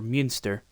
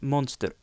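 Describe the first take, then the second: First: The name is said with a German ü vowel. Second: The name is said with a plain English vowel.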